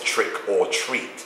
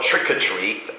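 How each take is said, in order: First: The phrase is said slowly, word by word. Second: The phrase is said quickly, run together.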